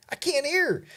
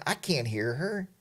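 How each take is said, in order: First: "I can't hear her" jumping much higher, frustrated; high exasperated repeat. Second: Said in the usual way. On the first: Retold or imitated. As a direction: throw it up high like you give up. Wind blowing, can't hear wife.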